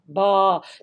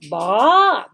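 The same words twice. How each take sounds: First: The pitch stays low. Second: The pitch rises from low to high. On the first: "They have a low sound" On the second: "They have a rising sound"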